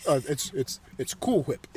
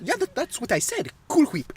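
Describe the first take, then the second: First: Low, soft correcting reply; Brian. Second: Higher, soft character voice with breathy "Whip"; Stewie. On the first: Brian correcting Stewie, low soft voice. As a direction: answer quieter and much lower. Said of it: "What's the matter, Brian?". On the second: Stewie insisting to Brian, higher soft voice. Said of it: "You literally say it exactly like him". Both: Acted.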